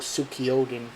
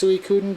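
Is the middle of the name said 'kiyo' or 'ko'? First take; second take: kiyo; ko. First: The middle syllable is a drawn-out 'kiyo'. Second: The middle syllable is a short 'ko'. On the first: The speaker calls it wrong. "some kid I used to know used to call it Sukiyoden" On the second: The speaker calls it right. "it's pronounced Suikoden"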